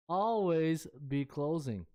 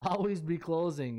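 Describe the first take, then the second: First: Slow, leaning hard on always; stress on always. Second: Said in the usual way. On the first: Retold or imitated. Quoting the movie line, stress on always. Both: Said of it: "I just love the emphasis on always".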